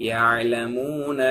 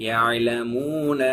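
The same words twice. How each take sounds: The two takes are said the same way.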